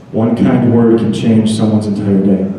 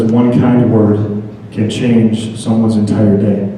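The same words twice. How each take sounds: First: Said in the usual way. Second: Slow, weighty reading of the card. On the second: Shown as a demonstration. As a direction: read it out slowly, letting each word land. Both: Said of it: "And it says".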